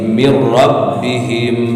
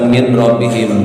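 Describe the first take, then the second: First: The n merges fully into the following r. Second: The n is pronounced clearly before the r. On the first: The speaker calls it right. "tapi mir rabbihim" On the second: The speaker calls it wrong. "teu kenging dibaca min rabbihim"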